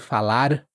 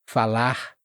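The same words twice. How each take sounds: First: The final R is barely heard. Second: The final R is a light breathy sound. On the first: "você também quase não vai ouvir" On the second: "som aspirado de árvore ... mas não precisa ser muito forte"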